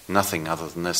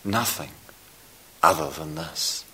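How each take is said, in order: First: "nothing" emphasized, the rest running on evenly; stress on nothing. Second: Unhurried, broken phrase leaning on "this"; stress on this. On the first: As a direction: lean on NOTHING, not on "this". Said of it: "the emphasis on the nother". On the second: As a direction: pause after "Nothing", then land on THIS. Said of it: "put the emphasis on the this". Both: Shown as a demonstration.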